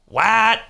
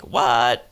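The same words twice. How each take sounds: First: Sharp high surprised what; shocked what. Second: Deflated, let-down what; disappointed. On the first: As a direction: blurt it out in shock. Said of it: "kinda disappointed". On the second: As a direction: say it like a letdown. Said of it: "Like, kinda disappointed". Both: Shown as a demonstration.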